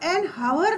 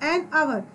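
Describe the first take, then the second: First: The h sound is pronounced at the start. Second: The h sound is silent at the start. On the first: The speaker calls it wrong. "हम एन हावर नहीं बोल रहे हैं" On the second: The speaker calls it right. "यहाँ पर एच क्या हो गया है, साइलेंट हो गया है"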